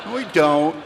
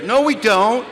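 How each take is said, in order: First: Said again through a laugh; laughing repeat. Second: A sharp high retort; mock correction, higher. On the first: Acted. Repeating the punchline to the crowd, laughing. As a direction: repeat it chuckling. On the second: Correcting the AA motto, a high sharp retort. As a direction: snap back higher and louder.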